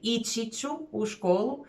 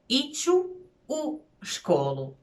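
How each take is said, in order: First: The verb keeps its full -ći ending. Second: The verb drops its -ći ending. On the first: "instead of saying" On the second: "native speakers will lose the entire um, ending chi"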